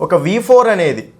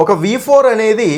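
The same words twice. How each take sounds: First: Said in the usual way. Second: Higher and slower, four stressed with a falling tune; slow emphatic repeat. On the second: Shown as a demonstration. Teacher repeating the key term for students, slow and emphatic. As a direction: repeat it slowly and weightily, leaning on four.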